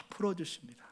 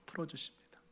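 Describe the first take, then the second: First: 풀어주십니다 breathed unvoiced, falling; unvoiced 풀어주십니다 with a soft fall; whispered. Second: 풀어주십니다 almost inaudible, voiced and falling away; 풀어주십니다 trailing off very softly; barely audible. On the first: Soft climax of comfort. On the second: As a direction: let 풀어주십니다 fade to nothing. Repeated even softer. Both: Real, not acted.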